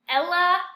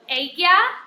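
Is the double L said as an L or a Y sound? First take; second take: L; Y. First: The double L is said as an L sound. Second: The double L is said as a Y sound. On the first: The speaker calls it wrong. "this I've heard mispronounced a lot" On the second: The speaker calls it right. "your double L makes a Y sound in Spanish"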